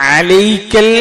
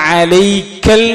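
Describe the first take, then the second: The two takes are said the same way.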